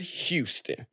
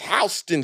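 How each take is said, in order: First: It is said the general North American way. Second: It is said the local New York way. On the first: This is the name as used for the city. "all the rest of North America ... Calls it Houston" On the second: This is the name as used for the New York street. "Come here to New York and people correct you. Nah, it's Houston Street"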